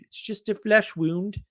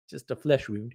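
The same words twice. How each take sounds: First: Mock brave knight. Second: Said in the usual way. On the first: Quoting the famous line.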